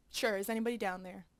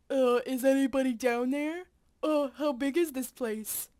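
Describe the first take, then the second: First: Said in the usual way. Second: Louder call through a PA speaker; PA announcement call; calling over PA. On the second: Acted. Calling into mine PA.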